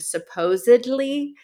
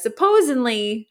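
First: The word has its standard pronunciation. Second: The word has an altered, nonstandard pronunciation. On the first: The speaker calls it right. "My mom mispronounces the word supposedly" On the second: The speaker calls it wrong. "she says supposedly. She says it like that"

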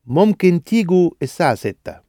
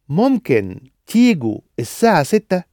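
First: The voice falls at the end like a statement. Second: The voice rises at the end like a question. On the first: Telling them they can come at six. "the other was a statement" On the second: Asking whether they can come at six. "one of them was a question"

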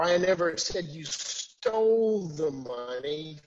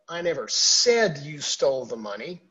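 First: The stress is on the word stole. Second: The stress is on the word said.

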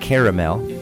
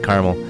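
First: The word is said with a standard pronunciation. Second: The word is said with a rural, folksy pronunciation.

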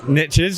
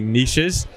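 First: It is said the American English way. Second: It is said the British English way.

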